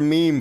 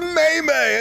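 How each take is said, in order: First: The word is said as one syllable, meem. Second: The word is said as two syllables, may-may. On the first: The speaker calls it right. "she can't even pronounce the word meme" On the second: The speaker calls it wrong. "She says May-May!"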